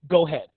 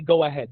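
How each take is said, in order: First: The first vowel of ahead is dropped. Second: The first vowel of ahead is clearly pronounced. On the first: "they get so upset they don't even pronounce the A. They say go ahead" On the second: "They don't say go ahead"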